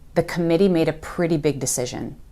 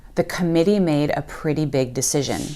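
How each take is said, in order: First: The middle T sounds are soft like D. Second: The middle T sounds are soft like D.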